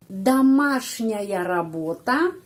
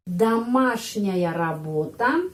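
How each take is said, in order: First: Домашняя работа slow and clear; teacher modelling домашняя работа; slow careful Russian. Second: Домашняя работа repeated slowly with rising end; teacher repeat. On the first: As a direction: model the phrase slowly. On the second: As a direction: say it again for learners to copy. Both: Shown as a demonstration.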